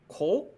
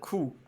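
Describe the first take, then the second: First: The syllable ends in an o vowel. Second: The syllable ends in an u vowel. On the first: "about like fifty percent said like uh" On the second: "the other half said"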